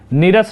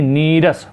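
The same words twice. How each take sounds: First: The first vowel is short. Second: The first vowel is long. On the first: The speaker calls it wrong. "नीरस नहीं" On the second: The speaker calls it right. "बड़ी एक मात्रा"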